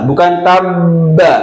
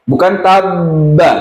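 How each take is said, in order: The two takes are said the same way.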